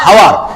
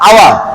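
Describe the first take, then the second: First: The word begins with an h sound. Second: The word begins with a vowel sound. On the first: The speaker calls it wrong. "কিন্তু এটা হাওয়ার হবে না" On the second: The speaker calls it right. "এই এই সারে দিলে হবে আওয়ার"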